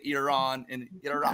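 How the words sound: The names are said the international newscaster way. "now I say"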